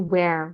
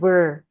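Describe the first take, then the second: First: The vowel sounds like the one in 'hair'. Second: The vowel sounds like the one in 'fur'. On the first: The speaker calls it wrong. "dilafalkannya sama Kak Iwan sebagai where, where untuk yang di mana" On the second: The speaker calls it right. "harusnya pakai were"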